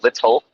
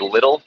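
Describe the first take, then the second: First: The middle consonant sounds like a crisp T. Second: The middle consonant sounds like a soft D. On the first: "instead of little" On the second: "we say little instead of little"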